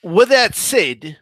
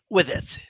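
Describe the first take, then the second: First: Said in the usual way. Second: Said again much softer, half to himself; softer murmured echo; quiet repeat. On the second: Shown as a demonstration. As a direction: drop the volume and let it trail.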